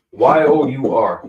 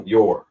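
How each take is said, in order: First: "Y O U R" spelled letter by letter, louder. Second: Said in the usual way. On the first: Shown as a demonstration. Teacher spelling the word for the class, letter by letter and louder. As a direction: spell out "Y O U R" one letter at a time, firmly. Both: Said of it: "it's a little blocked out".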